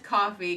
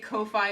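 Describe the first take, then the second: First: It sounds exactly like the word coffee. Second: It does not sound like the word coffee. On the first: The speaker calls it right. "the correct pronunciation is coffee because that's the bit" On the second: The speaker calls it wrong. "I say Ko-Fi instinctively"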